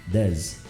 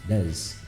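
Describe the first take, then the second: The two takes are said the same way.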